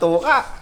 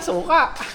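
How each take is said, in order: First: The word begins with a t sound. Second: The word begins with an s sound. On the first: "Tawag niya sa suka, tuka. bulol pa to nun eh"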